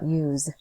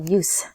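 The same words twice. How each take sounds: First: The word is pronounced as the verb form. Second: The word is pronounced as the noun form. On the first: The speaker calls it wrong. "not use" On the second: The speaker calls it right. "use is a noun here, so we have to say use"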